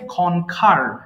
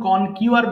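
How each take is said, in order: First: The middle has a plain 'k' sound. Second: The middle has a 'kyoo' glide sound. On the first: The speaker calls it right. "এটা উচ্চারণ হবে খনখার" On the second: The speaker calls it wrong. "এটাকে আমরা সারা জীবন কনকিউয়ার বলে আসছি"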